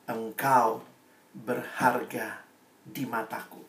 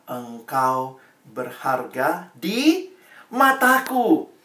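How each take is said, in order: First: Soft, slow, almost fading whisper of a promise; tender hushed reading; hushed verse. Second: Very slow, weighty, each word laid down; slow emphatic verse; slow solemn reading. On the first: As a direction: drop right down and let it sink in. Same verse repeated to youths. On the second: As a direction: read it like God's own promise. Reading God's words to youths. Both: Shown as a demonstration.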